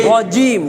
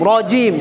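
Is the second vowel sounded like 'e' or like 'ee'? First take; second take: ee; ee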